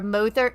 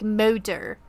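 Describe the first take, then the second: First: The word is said with short, plain vowels. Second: The word is said with long, drawn-out vowels. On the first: "instead of saying mother" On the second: "it's like motor"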